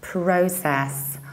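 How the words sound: The first vowel is a rounded O. "in British accents we need to round it"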